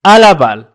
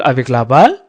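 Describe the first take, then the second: First: À la balle with à punched loud and falling; correct version stressed. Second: Avec la balle said as the rejected form, avec plain and balle rising; wrong version. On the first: Teacher stressing the right à la balle for pupils. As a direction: hit the word à hard, then la balle. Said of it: "نقول". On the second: Teacher showing the wrong phrase avec la balle to pupils. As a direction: avec la balle with a questioning rise on balle. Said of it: "لا، لا نقول". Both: Shown as a demonstration.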